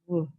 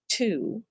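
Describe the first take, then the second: First: A w sound follows the t. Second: No w sound follows the t. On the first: This is how people used to say it. "people used to say twoo" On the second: This is how people say it now. "We say two"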